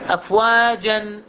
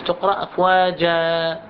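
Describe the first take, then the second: First: "أفواجًا" said slowly, ending clearly on the nun "afwajan"; tanween at a stop. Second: "أفواجا" slowly, ending on a long "aa" with no nun; pausal alif. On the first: Teacher showing the full form before the stop. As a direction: draw out "أفواجًا" and keep the final nun. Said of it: "فتقرأ شنو؟". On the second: Teacher showing students how to stop with the alif. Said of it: "أفواجا مع الألف". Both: Shown as a demonstration.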